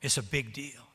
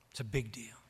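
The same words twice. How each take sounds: First: Said in the usual way. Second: A soft, hushed whisper of big deal; whispered again, quiet and intimate. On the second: Shown as a demonstration. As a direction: drop to a whisper to drive it home.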